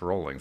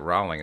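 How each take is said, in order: First: The first syllable sounds like 'roll'. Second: The first syllable does not sound like 'roll'. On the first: The speaker calls it right. "it's Rolling" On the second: The speaker calls it wrong. "I was pronouncing it Rowling"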